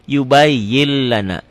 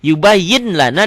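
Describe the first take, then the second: First: YUBAYYIL-LANA with long doubled L; N merged into L. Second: YUBAYYIN with a clear N before LANA; written form with N. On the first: Teacher showing the reading, YUBAYYIN turned to YUBAYYIL. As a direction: drop the N of YUBAYYIN, hold an L into LANA. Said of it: "N-nya hilang". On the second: Teacher showing the spelling, YUBAYYIN with its N. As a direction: sound the N, then say LANA. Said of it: "Ditulisnya kan pakai laten yubayyin". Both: Shown as a demonstration.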